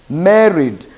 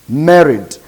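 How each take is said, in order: The two takes are said the same way.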